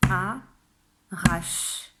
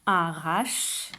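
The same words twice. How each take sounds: First: "arrache" split into a, rache with a long pause; two separate beats for "arrache", final e silent; syllable by syllable. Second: Said in the usual way. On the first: Shown as a demonstration. Teacher counting spoken syllables, word split in two. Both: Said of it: "Ça fait deux syllabes".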